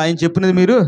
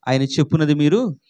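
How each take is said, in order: First: Louder and quicker, a call for the congregation to repeat. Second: Said in the usual way. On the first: Shown as a demonstration. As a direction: push it out firmly and faster. (గట్టిగా, వేగంగా చెప్పండి) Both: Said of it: "గట్టి చెప్పాలి".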